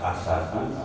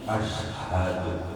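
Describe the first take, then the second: First: It starts with a vowel, then plain s. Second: It has a vowel, sh, then a breathy h. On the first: The speaker calls it wrong. "bukan asadu" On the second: The speaker calls it right. "tapi ashadu"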